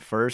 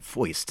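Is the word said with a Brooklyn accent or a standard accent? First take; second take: standard; Brooklyn. First: It is said with a standard accent. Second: It is said with a thick Brooklyn accent.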